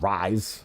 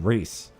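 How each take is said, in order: First: The name is said with an 'eye' vowel. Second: The name is said with an 'ee' vowel. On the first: The speaker calls it wrong. "not Rise" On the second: The speaker calls it right. "should be Reese"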